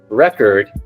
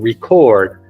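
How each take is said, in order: First: The stress is on the first syllable. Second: The stress is on the second syllable. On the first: It means a best result or a written document. "is placed on the R E" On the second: It means to write something down. "To record is a verb"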